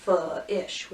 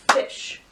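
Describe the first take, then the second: First: "f-ish" broken after the f; split onset and rime. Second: Said in the usual way. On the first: Shown as a demonstration. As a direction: say "f-ish" in two pieces, f, then ish. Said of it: "We're not gonna go f-ish". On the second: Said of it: "We're just gonna go fish".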